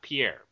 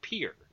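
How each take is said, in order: First: It is said the French way, stress at end. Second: It is said as one syllable like pier. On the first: This is the French name, not the local one. The speaker calls it wrong. "It's not the French way" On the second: This is how the South Dakota capital is said locally. The speaker calls it right. "is pronounced pier"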